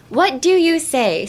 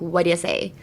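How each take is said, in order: First: "what do you say" slow and raised, each word given in full; four separate words. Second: "What do you say" run together as "whaddya say"; two-word reduction. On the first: Teacher counting the words for students, "what do you say" fully articulated. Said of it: "What do you say is four words". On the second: Teacher showing everyday pronunciation, "What do you say" as "whaddya say". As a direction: slur "What do you" into one quick "whaddya". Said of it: "it's usually, like, two words". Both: Shown as a demonstration.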